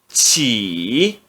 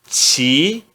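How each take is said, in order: First: The syllable is said in the third tone. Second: The syllable is said in the second tone. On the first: "No terceiro tom" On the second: "No segundo tom"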